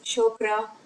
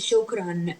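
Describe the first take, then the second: First: The word ends on a vowel without n. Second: The word ends with an added n sound. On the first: The speaker calls it wrong. "we pronounce it not just shokra" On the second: The speaker calls it right. "we pronounce it shukran. We add noon"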